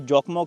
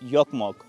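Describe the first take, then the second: First: The name begins with a J sound. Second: The name begins with a Y sound. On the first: The speaker calls it wrong. "वैसे जोकमोक लिखते हैं" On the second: The speaker calls it right. "जे को ये य कह के प्रोनाउंस करते हैं"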